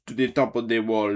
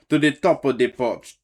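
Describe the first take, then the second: First: Said in the usual way. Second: Hollered command. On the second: Acted. Saint Nick hollering orders to his gators, loud. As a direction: TOP called out loud. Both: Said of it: "he whistle and holler".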